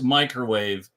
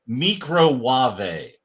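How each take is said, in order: First: The word is pronounced the ordinary way. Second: The word is pronounced in a fancy, unusual way. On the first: "she pronounced microwave" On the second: "that's our goofy name for the microwave because it sounds a little classier"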